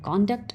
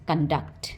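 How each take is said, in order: First: The first vowel is an 'o' sound. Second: The first vowel is an 'uh' sound. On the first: The word is used as a noun. "जब ये noun में होता है तो इसको बोलते हैं कॉन्डक्ट ... यहाँ ओ साउंड हो गया" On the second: The word is used as a verb. "जब ये वर्ब में होता है तो इसको बोलते हैं कंडक्ट ... यहाँ पे अ साउंड हो गया"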